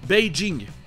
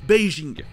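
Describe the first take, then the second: First: The j sounds hard, like dj. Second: The j sounds soft, like zh. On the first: "la prononciation habituelle du J ... plus proche de la prononciation chinoise" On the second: "le son je, c'est-à-dire sans le son de devant"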